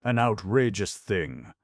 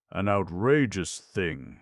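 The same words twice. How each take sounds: First: Outraged repeat. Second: Loud, slow, outraged uncle; violent outburst. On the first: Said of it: "which relieved his feelings". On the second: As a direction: spit out each word in outrage. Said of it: "said Uncle Benjamin violently". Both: A narrator's reading.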